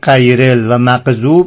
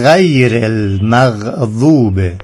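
First: The first consonant is a hard stop, like q. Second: The first consonant is a throaty gh fricative. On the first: The speaker calls it wrong. "اگه قاف بود ما هم اینجوری میخوندیم" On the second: The speaker calls it right. "برای تلفظ غین مقداری از داخل گلو"

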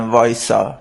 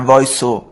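First: The word ends with an open 'a' vowel. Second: The word ends with a rounded 'o' vowel. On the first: This is the standard way of saying it. "قومی ها به وایسا نمیگن وایسا" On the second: This is how people from Qom say it. "میگن وایسو"

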